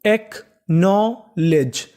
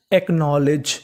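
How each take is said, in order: First: "acknowledge" very slow, in separate pieces; teacher stretching "acknowledge" out chunk by chunk; syllable by syllable. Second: Said in the usual way. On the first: Shown as a demonstration. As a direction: sound out "acknowledge" with a gap after each part. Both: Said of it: "तो पूरी meaning".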